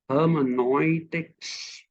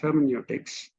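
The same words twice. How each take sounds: First: The word is said with a German pronunciation. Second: The word is said with an English pronunciation. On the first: It is the form used in the social sciences. "the German pronunciation of hermeneutics" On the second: It is the form used everywhere else. "But otherwise, it's hermeneutics"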